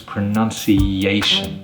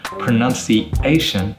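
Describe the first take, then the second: First: A Y sound links the vowels before -ation. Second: The vowels before -ation are said without a Y sound. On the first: The speaker calls it right. "it becomes pronunciation. Yation" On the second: The speaker calls it wrong. "instead of pronunciation"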